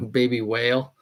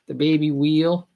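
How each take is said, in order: First: Said in the usual way. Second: Put-on whale said as "wheel" in a Boston accent, a bit higher; mock Boston accent. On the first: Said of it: "where the guy thinks that fish is a whe". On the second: Streamer quoting the whale video guy, mock Boston accent. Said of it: "Boston accent".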